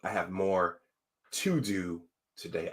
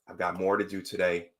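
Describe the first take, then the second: First: It is said slowly. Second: It is said quickly.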